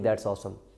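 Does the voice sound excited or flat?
flat. It is said flatly, without emotion. The speaker calls it wrong.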